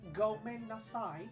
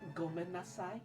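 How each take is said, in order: First: It is said in an exaggerated British accent. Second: It is said in a plain, unaffected accent.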